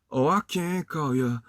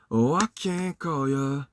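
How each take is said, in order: Both takes have the same delivery.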